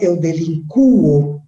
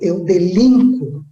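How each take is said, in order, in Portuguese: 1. A tônica cai na vogal U. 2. A tônica cai na vogal I. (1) "não vou colocar acento" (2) "O mesmo acontece com delinquir"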